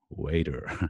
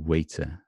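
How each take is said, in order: First: It is said with an American accent. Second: It is said with a British accent. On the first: "Americans would say waiter" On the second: "I would say probably waiter"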